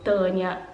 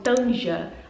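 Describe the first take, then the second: First: The j sounds like 'y'. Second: The j sounds like 'zh'. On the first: This is how Germans say it. "eles falam" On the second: This is how Portuguese speakers would read it. "pra gente seria assim"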